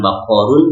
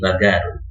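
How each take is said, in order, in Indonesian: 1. Huruf tengahnya bunyi q yang dalam, dari tenggorokan. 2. Huruf tengahnya bunyi g yang keras. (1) "kof itu berganti menjadi g" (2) "diucapkan g"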